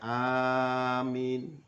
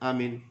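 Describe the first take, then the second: First: The first vowel is long, the second short. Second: Both vowels are said short. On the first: "A-nya panjang, min-nya pendek" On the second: "pendek-pendek semua"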